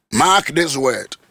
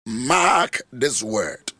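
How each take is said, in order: First: Firm repeated warning; firmer. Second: Very slow, heavy mark this word; solemn warning, very slow; slow emphatic. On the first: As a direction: hit "Mark" firmly. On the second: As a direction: drag out "Mark this word" deliberately. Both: Shown as a demonstration.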